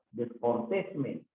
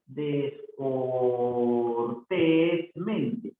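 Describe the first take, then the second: First: Said in the usual way. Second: "Descortésmente" very slow, almost chanted; syllable by syllable. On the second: Shown as a demonstration. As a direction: stretch each syllable of "Descortésmente". Teacher sounds out word for accent. (sílaba por sílaba, casi cantado)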